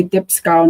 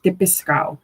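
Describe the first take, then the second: First: Dipsco in two syllables, no vowel between p and s. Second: Dipisco with an i inserted between p and s; the three-syllable variant dipisco. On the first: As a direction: run dip straight into sco. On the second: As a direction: break it up as di-pi-sco. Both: Shown as a demonstration. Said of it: "I say dipsco, not dipisco".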